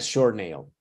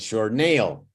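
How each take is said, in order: First: The word short is stressed and higher. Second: The word nail is stressed and higher. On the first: The speaker calls it wrong. "not a short nail" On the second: The speaker calls it right. "Nail goes up"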